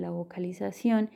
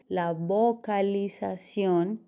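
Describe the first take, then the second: First: Said in the usual way. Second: "vocalización" stretched slowly, every syllable clear, rising at the end; careful articulation. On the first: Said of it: "reconocer esos". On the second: Shown as a demonstration. Teacher showing listeners clear articulation, slow and careful. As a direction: spell out "vocalización" slowly with a lift. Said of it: "decir las palabras bien y completas".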